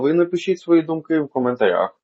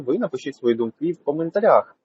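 First: It is recorded in a quiet room. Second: It is recorded outdoors with street noise. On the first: "в домашніх тихих спокійних умовах" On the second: "на вулиці через Sanaq B21S в вуличних шумних умовах"

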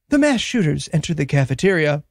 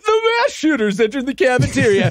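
First: It is said in a grave, somber tone. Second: It is said in a cheerful, breezy tone. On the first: The event is treated as a tragedy. "at various points, it'll be like" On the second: The event is treated as light news. "But at other times, it'll be like"

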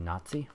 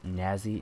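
First: The middle consonant is a ts sound. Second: The middle consonant is a plain z sound. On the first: "instead of" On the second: "we pronounce the Z as Z, does that mean that it's Nazi"

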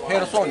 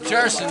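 First: The name is said with Spanish pronunciation. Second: The name is said with English pronunciation. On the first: "but in Spanish" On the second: "If you need English"

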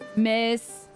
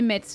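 First: No T sound is heard; it ends in S. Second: A T sound is heard before the final S. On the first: The speaker calls it right. "faut le savoir" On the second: The speaker calls it wrong. "Il prononçait le T de Metz"

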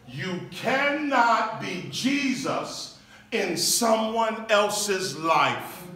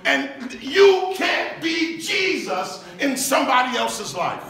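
First: It is said in a calm, quieter voice. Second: It is said with intense, raised preaching energy.

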